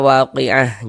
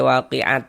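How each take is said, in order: First: The word ends with an h sound. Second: The word ends with a t sound. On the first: The speaker calls it right. "Ini kita baca waqi'ah" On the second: The speaker calls it wrong. "Jangan dibaca waqi'at"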